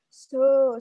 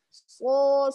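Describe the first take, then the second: First: The voice is puffed up and exaggeratedly big. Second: The voice is natural, not puffed up. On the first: The speaker calls it wrong. "membesarkan suaranya" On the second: The speaker calls it right. "seharusnya slot diucapkan dari pangkal lidah"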